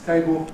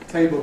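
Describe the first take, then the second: First: The final l is an o-like vowel. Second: The final l is a dark l consonant. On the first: "goes to O" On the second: "Dark L"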